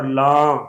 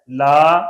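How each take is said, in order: First: لاں with the aa sent through the nose; nasalized vowel. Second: Said in the usual way. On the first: Shown as a demonstration. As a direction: end لاں open and nasal. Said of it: "غنے پیدا ہو رہے ہیں". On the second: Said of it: "اس کو چھوڑے تو لا بن جاتا ہے".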